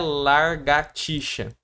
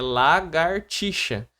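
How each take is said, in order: First: The r sound is in the first syllable. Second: The r sound is in the second syllable. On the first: The speaker calls it wrong. "não é largatixa" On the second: The speaker calls it right. "A palavra correta é, lar, é lagartixa"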